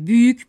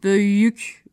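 First: The first vowel is a close ü sound. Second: The first vowel is an open ö sound. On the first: This is the standard form. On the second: This is how the local dialect says it.

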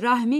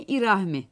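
First: The word begins directly with r. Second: The word begins with an added i vowel. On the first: This is the standard form. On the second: This is the local dialect form.

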